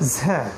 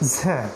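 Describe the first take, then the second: First: The consonant sounds thin and sharp. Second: The same.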